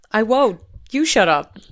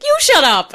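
First: Firm, raised-volume comeback; loud but not screamed retort; mock retort. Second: Very high, very loud retort; hammed-up shrieked comeback; mock scream. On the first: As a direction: imitate a stubborn answer in a spat. Acts out the answer in quarrel. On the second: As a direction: escalate to a full imitated yell. Quarrel escalates to yelling.

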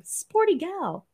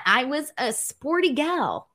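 First: "Sporty gal" drawn out slowly and high, mocking her own phrase. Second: Said in the usual way. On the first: Shown as a demonstration. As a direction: repeat "Sporty gal" slowly as if it's cringe. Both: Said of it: "that sounds super lame".

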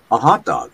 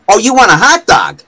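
First: Canadian rounded "hot dog"; Canadian accent. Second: Loud, high New York "haht dahg"; New York vendor. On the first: Canadian repeating order to vendor, Canadian accent. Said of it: "using my Canadian accent". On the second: Vendor correcting Canadian customer, exaggerated New York accent. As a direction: imitate a New Yorker who finally gets it. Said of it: "And he goes". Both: Retold or imitated.

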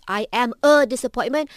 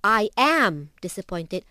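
First: "a" stressed, rising. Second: Slow with "am" stressed. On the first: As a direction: lean on "a" before disappointment. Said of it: "ada maksud yang berbeza". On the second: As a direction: weigh "am", then disappointed. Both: Shown as a demonstration.

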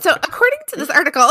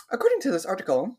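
First: High, fast, hammed-up newsreader; "according to this article" in a mock reporter voice. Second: Reporter voice. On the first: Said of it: "your reporter voice". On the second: Retold or imitated. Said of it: "you're like".

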